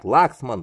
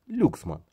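First: The first vowel sounds like 'a'. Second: The first vowel sounds like 'yu'. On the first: This is how some other people say the name. "Не Лаксман, как некоторые говорят" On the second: This is how Russians say the name. "для меня, ... Люксман. Для нас, русских, это Люксман"

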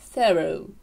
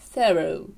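First: It is said with an American pronunciation. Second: It is said with an American pronunciation.

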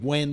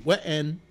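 First: The word is said as one plain syllable. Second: The word is stretched into two syllables. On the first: "the word when" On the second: "turn it into a two syllable word"

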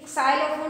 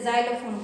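First: The word begins with an s sound. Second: The word begins with a z sound. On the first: The speaker calls it wrong. "साइलोफोन नहीं बोलते" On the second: The speaker calls it right. "ज़ाइलोफोन बोलते हैं"

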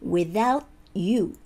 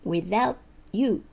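No difference in how they are said.

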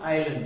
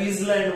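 First: The s is silent in the word. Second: The s is sounded in the word. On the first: The speaker calls it right. "इसलँड नाहीये, हे आयलंड आहे" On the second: The speaker calls it wrong. "याला बरेच लोक चुकीचं वाचतात. याला इसलँड वाचते"

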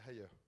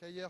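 First: The name is said with its original, non-French pronunciation. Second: The name is said with a French pronunciation. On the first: "la prononciation c'est Ayer" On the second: "je vais le prononcer à la française"

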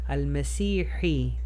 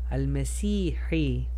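The two takes are said the same way.

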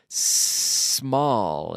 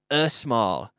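First: The word starts directly with the s sound. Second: An extra vowel sound comes before the s. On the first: The speaker calls it right. "El sonido empieza aquí con la, con, en mi boca" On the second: The speaker calls it wrong. "no estoy diciendo a small, que no hay ningún e"

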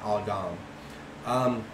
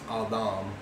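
First: The middle consonant is a hard d sound. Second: The middle consonant is a soft th sound. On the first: The speaker calls it wrong. "not Adam" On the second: The speaker calls it right. "it's actually pronounced Adam"

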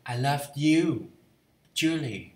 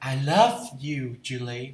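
First: The stress is on you. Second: The stress is on love.

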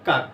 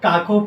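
First: The word ends on a bare consonant sound. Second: The word ends with an extra final vowel sound. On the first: The speaker calls it right. "কিন্তু আমরা উচ্চারণ করার সময় কি করি?" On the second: The speaker calls it wrong. "আমরা কেউ কিন্তু কাকও পড়ি না"

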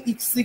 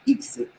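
First: The stress falls on the second syllable. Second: The stress falls on the first syllable. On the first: The speaker calls it wrong. "Но не иксы, как мы обычно частенько это делаем" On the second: The speaker calls it right. "ударение нужно поставить на и"

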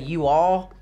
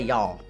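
First: Both words are said fully and separately. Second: The words are squeezed into one short syllable. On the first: This is how people in California say it. "in California they say you all" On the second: This is how people in Texas say it. "in Texas where I'm from, we say y'all"

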